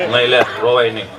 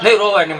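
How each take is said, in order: First: Very deep, unsoothing dad voice; low-voiced father's awkward comforting; father hushing child. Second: Lightly voiced mother hushing a child; a hint of motherly comforting; soothing mother. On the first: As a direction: tell a child not to cry, pitched way down. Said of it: "બાપો સાનો રાખે". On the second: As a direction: gently coax a child out of crying. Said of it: "મા સાને રાખતો હોય".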